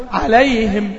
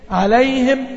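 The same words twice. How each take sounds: First: عليهم with the final meem clipped short and dry; dry muted meem. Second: عليهم with the final meem hummed and let run a little; flowing meem. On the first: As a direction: shut off the meem in عليهم hard. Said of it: "الميم كده مكتومة ناشفة". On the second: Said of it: "أنا عاوز معاها صوتها يجري شوية". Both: Shown as a demonstration.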